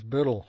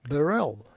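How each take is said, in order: First: The name is said with a Scottish pronunciation. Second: The name is said with an American pronunciation. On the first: This is how the name is said in its home country. "The Scottish pronunciation of my name is Burrell" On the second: This is how the name is said in North America. "the customs guy looked at my papers and said"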